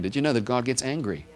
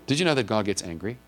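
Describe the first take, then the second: First: Falling, pointed repeat of the question; asked again, firmer. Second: Light rising question, stress on know; first asking. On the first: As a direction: press the question home with a falling end. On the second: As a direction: ask it lightly with a rise at the end. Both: Shown as a demonstration. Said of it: "I'm gonna ask it again".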